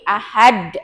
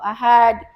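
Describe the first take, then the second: First: The final consonant is held, then released with bounce. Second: The final consonant is ended plainly, without bounce. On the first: The speaker calls it right. "lebih di apa ditahan lagi, kemudian dipantulkan" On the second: The speaker calls it wrong. "tidak biasa"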